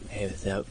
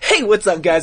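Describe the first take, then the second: First: It is said quietly and flatly. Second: It is said loudly and enthusiastically.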